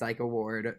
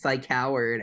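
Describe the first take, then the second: First: The name is split as psycho plus ward. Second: The name is split as psych plus howard. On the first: This is the intended name most readers use. "most people naturally read it as Psycho Ward" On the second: This is the band's habitual joke name. "pronouncing it as Psych [name]"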